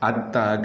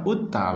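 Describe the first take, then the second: First: The word begins with an a vowel. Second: The word begins with a u vowel. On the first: "Atta ke baris atas" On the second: "utta baris depan"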